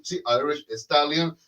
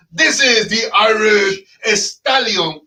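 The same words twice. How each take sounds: First: Said in the usual way. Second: Slowed, big ring-announcer build on each word; grand announcer intro. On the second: Acted. Host hypes up his co-host with a slow ring-announcer intro. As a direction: introduce him like a prizefighter, drawn out.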